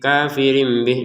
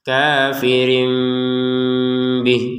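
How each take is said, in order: First: The m sound is plain, without obscuring. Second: The m sound is obscured before the b. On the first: The speaker calls it wrong. "jangan sekedar kafirim bih kafirim bih. Nah ini kurang" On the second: The speaker calls it right. "kita sempurnakan kafirim bih seperti itu"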